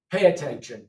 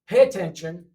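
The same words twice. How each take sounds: First: "Pay attention." repeated firmly; teacher command repeat. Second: "Pay attention." said loud as a classroom order; teacher command. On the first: Teacher repeating the command, firm and loud. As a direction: repeat the order to the class. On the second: Teacher ordering the class to listen, loud. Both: Shown as a demonstration. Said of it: "This is like you're talking to a class".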